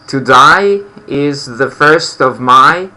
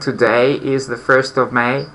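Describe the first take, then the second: First: Today sounds like 'to die', New Zealand style. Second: Today is said with a standard 'day' vowel. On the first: "they tend to pronounce, as I remember, something like" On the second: "instead of saying"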